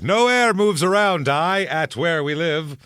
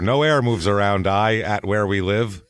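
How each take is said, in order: First: It is read in a grand, pompous way. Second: It is read in a plain, ordinary way.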